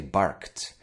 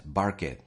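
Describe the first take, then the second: First: "barked" as one syllable ending in T; crisp T at the end of "barked"; correct past ending. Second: "barked" in two syllables, bark-id; mispronounced "barked" as bar-kid; wrong extra syllable. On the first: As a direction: say "barked" like "barkt". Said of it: "Why do I say barked". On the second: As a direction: say "barked" with the E-D sounded out. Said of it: "and not barked". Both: Shown as a demonstration.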